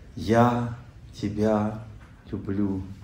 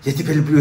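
First: The phrase is said slowly and calmly. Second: The phrase is said fast and rushed. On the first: The words come from the heart. The speaker calls it right. "Ну, спокойно" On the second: The words come out without feeling. The speaker calls it wrong. "Слушай, ты успокоишься, скажи нормально"

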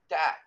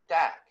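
No difference in how they are said.

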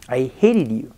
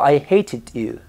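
First: It is said in an American accent. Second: It is said in a British accent.

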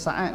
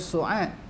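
First: The first vowel is an open 'a'. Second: The first vowel is a rounded 'u'. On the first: This is how Malay speakers usually read it. "Kita baca Sa'ad kan" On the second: This is how Arabs say it. "Dia Su'ad"

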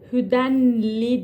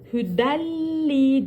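First: The n is pronounced clearly before the l. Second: The n merges fully into a doubled l. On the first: The speaker calls it wrong. "Hüdenli değil. Bakın demek zor" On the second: The speaker calls it right. "Hüdelli diyoruz. İdgamı bilagunne yapıyoruz"

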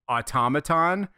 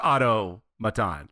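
First: The first part does not sound like Otto. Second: The first part sounds like the name Otto. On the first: The speaker calls it wrong. "I pronounce the word automaton" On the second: The speaker calls it right. "like O-T-T-O maton"

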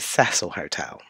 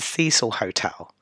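First: The name is said with an English pronunciation. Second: The name is said with an American pronunciation. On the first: "I'm going to give it the English pronunciation" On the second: "the Americans pronounce this as the Cecil Hotel"

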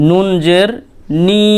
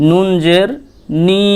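Both takes have the same delivery.

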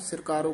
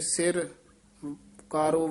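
First: The two words run together as one word. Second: The two words are said apart with a break. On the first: The speaker calls it wrong. "ਇਕੱਠਾ ਨਹੀਂ ਕਹਿ ਦੇਣਾ" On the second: The speaker calls it right. "ਵੱਖਰਾ ਪਾਠ ਕਰਨਾ ਹੈ"

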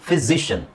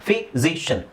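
Both takes have the same delivery.

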